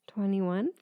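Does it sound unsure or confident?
unsure. It sounds unsure, like a question.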